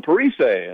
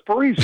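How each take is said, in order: First: Parise said "pa-ree-SAY"; French Canadian pronunciation. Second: Parise said "pa-REE-zee"; easy pronunciation. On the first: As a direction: end Parise on an AY sound. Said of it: "the French Canadian version". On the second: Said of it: "if you say Parise". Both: Retold or imitated.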